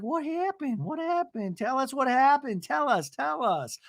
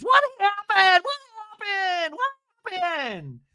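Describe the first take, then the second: First: High, insistent mock pleading; put-on high voice, not shouted; Gina. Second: Very high, drawn-out shriek; hammed-up squealed scream; imitated scream. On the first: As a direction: squeak out a demand for gossip. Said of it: "And Gina's like". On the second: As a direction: screech it out in mock panic. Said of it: "Tamara finally screams".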